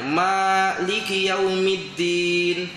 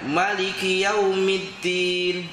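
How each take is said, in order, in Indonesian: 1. Vokal setelah m pertama dibaca panjang. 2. Vokal setelah m pertama dibaca pendek. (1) "Mimnya itu kan panjang" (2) "boleh kita baca dengan tidak panjang"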